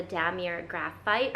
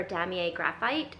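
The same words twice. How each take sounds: First: "Damier" said DAM-ee-er, with an R at the end; "Damier" with a sounded final R; first pronunciation attempt. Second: "Damier" said DAM-ee-ay, silent R; "Damier" ending in an AY sound; French-style pronunciation attempt. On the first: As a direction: say "Damier" as DAM-ee-er and "Graphite" as GRAF-ite. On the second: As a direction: say "Damier" as DAM-ee-ay and "Graphite" as GRAF-ite. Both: Shown as a demonstration. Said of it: "I don't know how to pronounce it".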